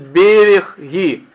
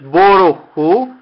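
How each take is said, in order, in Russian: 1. Гласный во втором слоге звучит как i. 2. Гласный во втором слоге звучит как o. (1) "а вы можете услышать" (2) "вы можете услышать"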